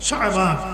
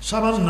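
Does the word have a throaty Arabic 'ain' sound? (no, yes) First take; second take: yes; no. First: It is said with a throaty Arabic 'ain' sound. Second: It is said plainly, like the Bengali word for soap. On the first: This names the month. The speaker calls it right. "শিন আইন বালিগ নু" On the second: This names the soap one puts on the body. The speaker calls it wrong. "শাবান না, শাবান তো আমরা গায়ে দিই"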